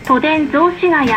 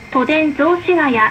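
No difference in how they are said.

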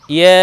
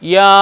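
First: ইয়া as a light yae, vowel held; mid-tongue light ya. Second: ইয়া with a broad open aa; wrong open yaa. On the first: Teacher shows learner the proper way, light fronted ইয়া. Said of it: "জিহ্বার মধ্যখান ওপরে তালুর সাথে". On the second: Teacher warns learner off this sound, broad ইয়া. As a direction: open the vowel of ইয়া fully to aa. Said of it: "এমন যেন উচ্চারণ না হয়". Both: Shown as a demonstration.

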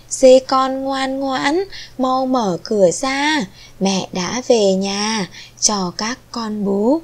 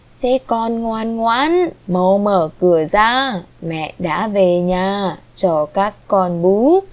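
First: Slow, lilting chant, starting high; mother goat's rhyme. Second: Faking mother goat's voice. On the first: Mother goat calls her kids to open the door, chanted rhyme. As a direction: recite the verse slowly to little ones. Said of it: "nghe thấy mẹ đọc bài thơ này". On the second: Wolf at the door imitates mother goat, slightly disguised voice. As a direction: chant it slowly as a wolf posing as mother. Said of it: "giả giọng dê mẹ". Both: A narrator's reading.

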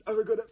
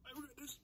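First: Pained cry. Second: Pained whimper. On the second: Whimpering in pain. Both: Real, not acted.

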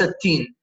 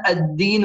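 First: التين with an unvoiced t in place of د; mispronunciation demo. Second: الدين with a firm, voiced doubled د. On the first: Teacher shows the mistake, التين with t for د. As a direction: turn الدين into التين with a t. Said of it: "الدين وليس التين". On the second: Teacher stresses the shadda, الدين with doubled voiced د. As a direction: press on the د in الدين, not a t. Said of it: "نركز على شدة الدال". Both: Shown as a demonstration.

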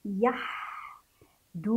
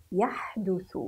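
First: يحدث very slowly as yah, du, thu; syllable-by-syllable reading. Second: Said in the usual way. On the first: Shown as a demonstration. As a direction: sound out يحدث in separate syllables with long ح. (تهجئة يحدث ببطء شديد) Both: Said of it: "نقرأ".

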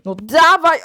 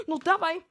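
First: Impatient shout. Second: Said in the usual way. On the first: Acted. Asks to be slapped on the back.

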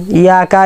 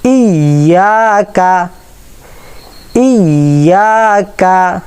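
First: ইয়াকা without the hamza; wrong weak start. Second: ইয়াকা opened with a crisp glottal stop; ইয়াকা with a clean catch at the start; clear hamza. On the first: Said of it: "ইয়াকা বলবো না". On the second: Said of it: "হামজাটা clear করবো". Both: Shown as a demonstration.

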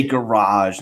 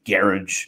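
First: "garage" said the American way, ga-RAHZH; American pronunciation. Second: "garage" said the British way, GARR-idge; British pronunciation. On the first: Explaining American English to a friend, "garage" as ga-RAHZH. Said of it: "how we say garage". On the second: Showing a friend how Britons differ, "garage" as GARR-idge. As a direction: stress the first syllable of "garage", ending in -idge. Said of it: "they say garage". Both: Shown as a demonstration.

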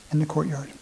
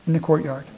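First: In the courtyard repeated much softer. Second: Said in the usual way. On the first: Shown as a demonstration. Preacher quietly repeats the answer to the congregation. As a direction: echo In the courtyard quietly to let it sink in. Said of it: "repeated answer". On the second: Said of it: "where was the brazen altar located".

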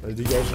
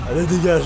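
First: Said in the usual way. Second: Shouted dismissal, much louder. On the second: Acted. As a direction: bark it out loud and sharp. Repeats command, second louder.

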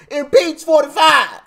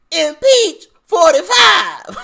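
First: Loud, high mock shout of the slogan; imitating Maxine Waters. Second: Higher, louder, slow drawn-out yell; mock rally shout. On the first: Vlogger mocks Maxine Waters's voice, shouting impeach forty-five. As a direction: ham up her rally chant. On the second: Vlogger mocks Maxine Waters, bellowing it slowly. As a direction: stretch the shout like a crowd chant. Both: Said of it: "I hate this lady's voice".

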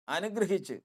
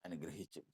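First: Higher, rising exclamation; exultant. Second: Low, much softer word; hushed. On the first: Preacher joyfully announces the blessing to the church. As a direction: burst out with the good news. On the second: Preacher softly tells the church the angel blessed him. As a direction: let it fall almost to nothing. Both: Acted.

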